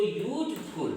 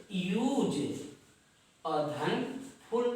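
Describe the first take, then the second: First: Said in the usual way. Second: "यूज" and "फुल" said separately, slowly; split into syllables. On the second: Shown as a demonstration. Teacher showing two syllables, "यूज" and "फुल" slowly split apart. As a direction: break it into "यूज", pause, "फुल". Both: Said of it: "यानी दो syllable हो गए".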